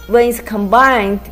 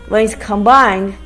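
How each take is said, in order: No difference in how they are said.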